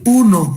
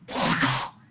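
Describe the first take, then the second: First: The word is said with full voice, sounding. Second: The word is said without voice, whispered. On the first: "es pectoriloquia sonora" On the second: "es pectoriloquia áfona"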